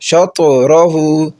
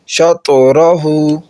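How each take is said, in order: First: The t sound ends with an echoing bounce. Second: The t sound ends with an echoing bounce.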